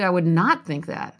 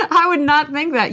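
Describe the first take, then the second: First: Said in the usual way. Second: "I would not think that" higher and louder, laughing; "not" pushed up through the giggle; emphatic repeat. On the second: Shown as a demonstration. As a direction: insist on it with a laugh in the voice.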